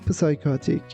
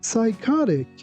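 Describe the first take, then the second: First: A P sound is heard at the start. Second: No P sound is heard at the start. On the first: The speaker calls it wrong. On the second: The speaker calls it right.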